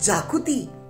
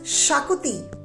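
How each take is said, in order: First: The word begins with a 'j' sound. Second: The word begins with a 'sh' sound. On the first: The speaker calls it wrong. "Many people mispronounce this shakuti as jakuti" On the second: The speaker calls it right. "but it is shakuti"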